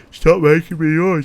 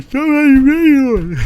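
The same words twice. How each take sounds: First: Higher and much louder through a yawn; begging chat to stop the yawns, mid-yawn; yawning plea. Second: Very high, very loud and slow in a huge yawn; stretched wide open yawn; full yawn. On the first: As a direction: push it out as a yawn starts. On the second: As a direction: let the whole line become one big yawn. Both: Real, not acted. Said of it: "I can't stop yawning".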